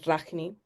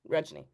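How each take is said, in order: First: The name is said in a Spanish way. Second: The name is said in an Indian way.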